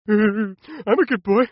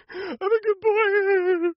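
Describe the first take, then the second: First: Put-on slow, sing-song little-kid voice; mock good boy. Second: Put-on much higher, very slow, squeaky "good boy"; mock good boy, squeakier. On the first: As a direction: drag out "I'm a good boy" like a sweet child. Kid showing off good behaviour. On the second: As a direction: stretch "good" way up like a cooing toddler. Kid repeating it even sweeter.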